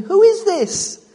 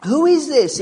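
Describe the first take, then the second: First: Much higher, slow, louder astonished cry; awed disbelief. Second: Louder, higher cry of wonder; disciples asking. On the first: Disciples in the boat, stunned by Jesus, high and slow. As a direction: stretch it out in stunned wonder. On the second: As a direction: disciples in the boat ask about Jesus, astonished. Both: Retold or imitated. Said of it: "we left them asking".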